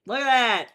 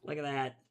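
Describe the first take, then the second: First: Louder, higher "Look at that" with falling end; loud delighted look at that; excited exclaim. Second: Said in the usual way. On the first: Real, not acted. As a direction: show it off with delight.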